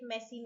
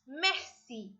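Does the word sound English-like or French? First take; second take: English-like; French. First: It sounds like the English word messy. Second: It sounds like the French word merci. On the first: The speaker calls it wrong. "Please don't say it messy" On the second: The speaker calls it right. "It's merci"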